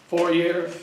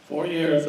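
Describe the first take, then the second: First: "Four years?" asked with a rising, unsure tune; asking Susan across the room, a questioning rise. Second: "Four years" settled with a falling tune; confirming Susan's answer, a firm fall. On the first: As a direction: check the figure with her, lifting at the end. Checking the number with Susan. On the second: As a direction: state it back as fact, falling. Confirming the number after Susan. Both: Real, not acted.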